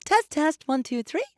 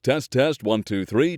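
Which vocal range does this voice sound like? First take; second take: high; baritone. First: The voice is very high-pitched. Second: The voice is a low baritone. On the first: "Higher voices" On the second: "Baritone voices"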